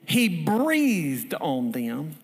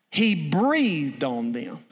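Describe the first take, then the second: First: Very slow, louder repeat with a rise; lingering repeat of the scripture; slower drawn-out repeat. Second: Very slow, drawn-out telling; slow reverent scripture reading; slow breathy emphasis. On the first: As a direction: draw it out even more the second time. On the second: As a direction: stretch each word out slowly. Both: Shown as a demonstration.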